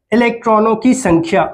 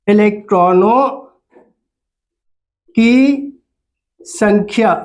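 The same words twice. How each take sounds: First: Said in the usual way. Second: "इलेक्ट्रॉनों … की … संख्या" with long gaps between words; word-by-word dictation. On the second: Shown as a demonstration. Teacher dictating "इलेक्ट्रॉनों की संख्या" for pupils to write, long pauses between words.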